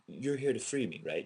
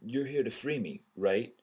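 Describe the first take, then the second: First: It is said in a plain, matter-of-fact way. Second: It is said in a more questioning, inquisitive way.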